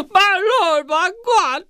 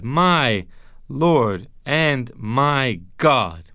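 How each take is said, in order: First: Gasp, then a very high-pitched shocked exclamation; hammed-up shock, squealing far above normal pitch; mock freak-out. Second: "My Lord and my God" spoken very slowly, word by word; slow, deliberate address, pausing after "My"; solemn declaration. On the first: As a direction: blurt it like a startled overreaction. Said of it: "He's kind of freaking out". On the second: Acted. Solemn declaration of Thomas's claim.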